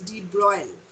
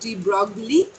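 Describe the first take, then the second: First: Broglie is said with a French pronunciation. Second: Broglie is said as it is spelled. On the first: The speaker calls it right. "It's a French name. The pronunciation is de Broglie" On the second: The speaker calls it wrong. "remember the pronunciation is not de Broglie"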